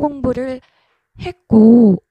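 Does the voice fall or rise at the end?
fall. The pitch falls at the end. It sounds natural and friendly. The speaker calls it right. "조금은 자연스럽게 내려준다는 식으로"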